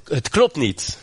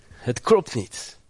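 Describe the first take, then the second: First: Said in the usual way. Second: "Het klopt niet" said slowly, each word weighed; slow, deliberate insistence on "klopt"; slow emphatic repeat. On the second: Shown as a demonstration. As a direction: drag out "klopt niet" to drive it home.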